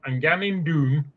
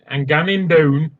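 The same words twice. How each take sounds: First: "doon" slow with a long oo; softly, carefully say "ganning doon" with oo; copied doon. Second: "down" with a gliding ow vowel; mispronounced doon. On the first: Learner getting it right, slower and softer, "doon" with oo. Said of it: "Doon, yes, doon". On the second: Learner trying the dialect, "down" said with an ow vowel. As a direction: attempt "ganning down" without the oo. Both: Retold or imitated.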